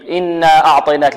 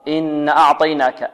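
First: The vowel after the doubled n is long. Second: The vowel after the doubled n is dropped. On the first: The speaker calls it right. "بعدها ألف" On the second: The speaker calls it wrong. "يحذفون هذه الألف"

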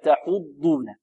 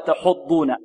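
First: The ḍ carries a clear u vowel. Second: The ḍ lacks a clear u vowel. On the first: The speaker calls it right. "كذلك الضم في تحضون" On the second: The speaker calls it wrong. "لا نقول ولا تحضون"

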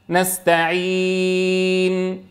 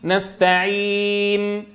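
First: The long vowel is held for six counts. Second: The long vowel is held for four counts. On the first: "2 و4 و6 حركات" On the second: "2 و4 و6 حركات"

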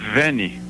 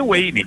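First: The name begins with a V sound. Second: The name begins with a W sound. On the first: This is how it is said in Switzerland. "lá se fala Vene. Porque W" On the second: This is how people in Brazil say it. "Devido à americanização da cultura brasileira, eu virei Wayne"

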